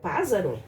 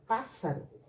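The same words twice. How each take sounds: First: The middle consonant is a Z sound. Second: The middle consonant is an S sound. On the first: The speaker calls it wrong. "Senão vai ficar pássaro. Pássaro não existe" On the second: The speaker calls it right. "Vou ter que usar dois S's"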